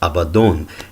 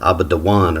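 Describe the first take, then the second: First: The word ends with a short '-don' syllable. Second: The word ends with a longer '-dawan' sequence. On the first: This is the standard, anciently attested form. "the standard understanding of that word would be that it's pronounced Abaddon" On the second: This is the form the opposing group claims. "they would say no, it's uh, pronounced uh, Abadawan or something like that"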